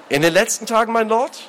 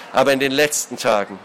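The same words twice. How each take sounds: First: High, rising question; puzzled echo. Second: Measured, grim falling statement. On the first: Acted. Brother asking the lord what he means, puzzled. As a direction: echo it back, not understanding. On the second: A narrator's reading. Lord hinting at recent wrongdoing, grimly. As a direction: state it darkly. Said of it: "sagte der Hausherr düster".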